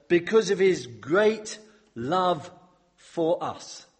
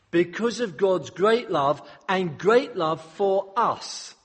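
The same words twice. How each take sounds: First: Unhurried stress on "great love"; slow emphatic reading. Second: Slow, higher restatement stressing "great"; slow, raised restatement punching "great"; emphatic restatement. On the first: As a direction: read slowly, leaning on each word. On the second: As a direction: hammer "great" twice in "great love and great love", slowly. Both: Shown as a demonstration. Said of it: "that's really important".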